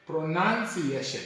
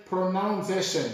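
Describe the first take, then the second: First: "pronunciation" with "nun", pro-nun-see-ay-shun; "pronunciation" con "nan", pro-nan-si-ei-scion; right pronunciation. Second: "pronunciation" with "nounce", pro-nown-see-ay-shun; "pronunciation" con "naun", pro-naun-si-ei-scion; wrong pronunciation. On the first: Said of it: "but we say". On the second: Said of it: "we don't say". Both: Shown as a demonstration.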